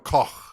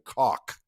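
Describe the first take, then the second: First: The name ends in a raspy, throaty sound. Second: The name ends in a plain hard k. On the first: This is the original German way. "in German, it's actually you know Koch. There's a little bit of little spit that happens" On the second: This is the Americanized way. "we just Americanized it a little bit more by saying Koch"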